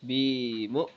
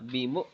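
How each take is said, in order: First: The first vowel 'bi' is drawn out. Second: The first vowel 'bi' is kept short. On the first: The speaker calls it wrong. "এভাবে হবে না" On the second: The speaker calls it right. "এভাবে বলতে হবে"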